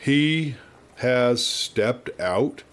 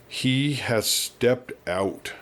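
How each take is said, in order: First: Very slow, stretched retake; slow echo. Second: Slow, drawn-out echo of the words. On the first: Shown as a demonstration. Narrator retakes the old man's line, slower and dazed. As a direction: drag it out, word by word. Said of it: "Let's try that again". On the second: Acted. Old man slowly repeating the doctor's words, dazed. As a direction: let each word hang, stunned. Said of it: "echoed the old man slowly".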